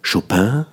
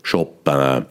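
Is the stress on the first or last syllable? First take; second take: last; first. First: The stress is on the last syllable. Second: The stress is on the first syllable.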